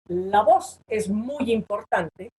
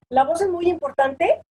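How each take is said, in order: First: The voice falls at the end. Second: The voice rises at the end, like a question.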